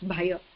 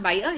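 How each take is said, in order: First: The first consonant is said with aspiration. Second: The first consonant is said without aspiration. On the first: The speaker calls it right. "it is aspirated bha" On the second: The speaker calls it wrong. "so it's not bhaya"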